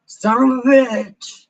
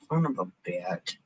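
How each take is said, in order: First: High, loud sung line; sung, belt it out like a song lyric; loud singing, pitched up; sung curse. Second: Low, soft grumbled curse; subdued, low-pitched swearing. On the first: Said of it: "That's actually a real song". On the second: Low curse before bursting into song. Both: Real, not acted.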